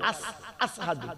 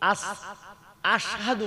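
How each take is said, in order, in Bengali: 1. মাঝের ব্যঞ্জনটি একটি 's' ধ্বনি। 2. মাঝের ব্যঞ্জনটি একটি 'sh' ধ্বনি। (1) "বেলালের আযান সহি হয় না" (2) "শিন বলতে পারে"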